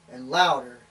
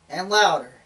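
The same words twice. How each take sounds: First: First step of a build, still held back; getting louder. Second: Louder still. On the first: Speaker describes a growing car noise, getting louder. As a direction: start the build at an everyday volume. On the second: Speaker mimics a car noise growing, louder still. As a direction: top of a mild build. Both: Retold or imitated. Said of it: "and it gets louder".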